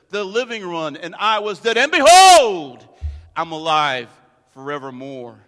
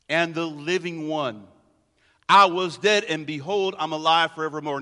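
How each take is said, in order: First: Behold is said as an exclamation. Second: Behold is said plainly, like the other words.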